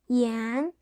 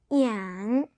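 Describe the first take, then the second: First: The pitch rises from mid to high. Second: The pitch dips low then rises.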